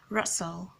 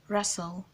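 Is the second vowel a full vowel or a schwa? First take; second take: schwa; schwa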